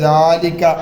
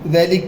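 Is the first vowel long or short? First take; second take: long; short. First: The first vowel is drawn out long. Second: The first vowel is short. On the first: The speaker calls it right. "നീട്ടിയാണ് പറയേണ്ടത്" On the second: The speaker calls it wrong. "ദലിക്ക എന്നല്ല പറയാ"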